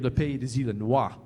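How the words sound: It is said with a France French pronunciation.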